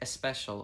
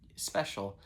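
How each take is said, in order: First: An e sound is added before the s. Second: It begins directly with the s sound.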